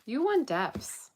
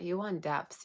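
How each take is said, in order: First: Slow, high and loud emphasis on depths; emphatic. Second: Said in the usual way. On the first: Real, not acted. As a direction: drag out and punch "You want depths" loud and high. Emphatic point in tarot reading.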